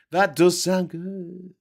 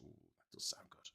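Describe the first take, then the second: First: 1 loud drawn-out agreement. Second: Hushed savoring whisper; whispered ooh. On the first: Loud slow repeat. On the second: Imagining banana toast, whispering with relish. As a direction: breathe it out hungrily. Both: Real, not acted.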